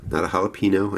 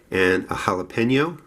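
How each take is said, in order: First: Jalapeno said hah-lah-PEE-no with a long ee; corrected pronunciation. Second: Jalapeno said as hah-leh-PEN-yo in a Jersey accent. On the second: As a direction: jalapeno with a nasal Jersey ny sound. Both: Shown as a demonstration. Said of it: "I know I say that from my Jersey accent".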